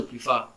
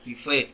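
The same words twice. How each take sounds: First: PREFER ending in an open "ah", like "prifah"; corrected PREFER. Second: PREFER ending in an open "eh", like "prifeh"; mispronounced PREFER. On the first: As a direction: say PREFER with "-fah" as its last syllable. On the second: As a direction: say PREFER with "-feh" as its last syllable. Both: Real, not acted. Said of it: "sorry, prefer".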